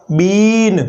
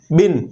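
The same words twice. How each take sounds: First: बीन with a held long ee. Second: बिन with a quick clipped short i. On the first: Teacher contrasting long बीन with short बिन, drawn out. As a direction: stretch the ee in बीन. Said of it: "थोड़ा length ले लेता है". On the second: Teacher contrasting short बिन with long बीन, quick. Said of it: "short utterance है". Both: Shown as a demonstration.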